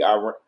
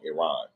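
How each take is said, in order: First: Iran said as "eye-RAN"; mispronounced Iran. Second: Iran said as "ih-RAHN"; corrected pronunciation. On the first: Streamer asking viewers about news, saying Iran as "eye-RAN". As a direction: say Iran with a long "eye" at the start. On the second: Streamer correcting himself to viewers, saying Iran as "ih-RAHN". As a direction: say Iran with a short first vowel and open "ah". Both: Real, not acted. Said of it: "I've been saying it wrong".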